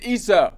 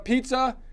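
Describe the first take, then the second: First: The word starts without any p sound. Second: The word starts with a clear p sound.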